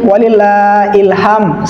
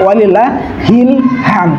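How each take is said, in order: First: The second word starts with a plain vowel. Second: The second word starts with an h sound. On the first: The speaker calls it wrong. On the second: The speaker calls it right. "Yang betul walillah hilham ya"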